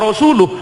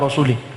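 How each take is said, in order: First: The word ends with an 'uh' sound. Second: The word ends with an 'ih' sound. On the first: God and His Messenger are free of the idolaters. The speaker calls it right. "yang benar" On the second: God is free of the idolaters and of the Messenger. The speaker calls it wrong. "salah bacanya"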